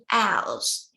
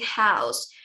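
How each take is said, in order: First: The h at the start is dropped. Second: The h at the start is pronounced. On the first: "we're saying house" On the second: "instead of saying house"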